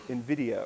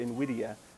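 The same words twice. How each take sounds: First: It is pronounced in an English style. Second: It is pronounced in a Latin style.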